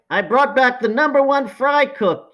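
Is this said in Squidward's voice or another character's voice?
another character. It is said in a non-Squidward character voice.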